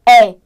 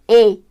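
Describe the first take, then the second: First: The vowel is strong, open and stressed. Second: The vowel is weak and unstressed. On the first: "Se é tônico, é" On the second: "Se é átono, e"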